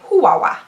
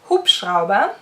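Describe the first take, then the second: First: The word is reduced to simple repeated syllables. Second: Every sound of the word is pronounced. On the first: The speaker calls it wrong. "I would always say Huwawa" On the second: The speaker calls it right. "the easy word means Hubschrauber"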